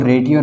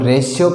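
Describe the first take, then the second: First: The middle consonant is a t-like sound. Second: The middle consonant is a sh sound. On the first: The speaker calls it wrong. "रेडियो न पढ़ के" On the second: The speaker calls it right. "रेशियो पढ़ा जाता है"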